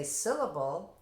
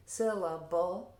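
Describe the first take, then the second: First: Said in the usual way. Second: "syllable" slow and louder, in three clear parts. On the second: Shown as a demonstration. Teacher prompting students to say it, "syllable" slowly sounded out in parts. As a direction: sound out "syllable" beat by beat, higher. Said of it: "now say".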